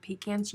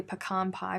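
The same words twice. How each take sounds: First: "pecans" as pee-CANS; pee-CAN pronunciation. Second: "pecan" as puh-KAHN before pie; puh-KAHN pronunciation. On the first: Contrasting pie with nuts, "pecans" as pee-CANS. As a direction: say "pecans" with a long EE and short A. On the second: Reading a viewer's usage, "pecan" as puh-KAHN. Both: Shown as a demonstration. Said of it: "I say pecan pie, but I eat pecans".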